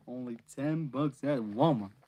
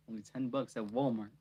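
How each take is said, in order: First: "Walmart" pushed out louder; louder retake. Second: Said in the usual way. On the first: Shown as a demonstration. Reader retaking her Walmart line, louder. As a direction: punch the line up.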